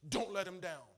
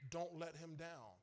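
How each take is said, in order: First: It is said in a stern voice. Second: It is said in a soft voice.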